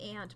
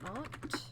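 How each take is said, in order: First: The word is said with the speaker's usual pronunciation. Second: The word is said with a British pronunciation. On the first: It is how the speaker normally says it. "I normally say aunt" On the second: It suits the British game being played. "it's a British game, so I feel like I have to say it like that"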